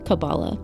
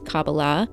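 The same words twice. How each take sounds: First: It is said the esoteric, tarot-practice way. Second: It is said the rabbis' traditional way. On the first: It refers to the esoteric and tarot practice. The speaker calls it wrong. "the more, I guess you could say, incorrect pronunciation" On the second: The speaker calls it right. "in the way that the rabbis pronounce it"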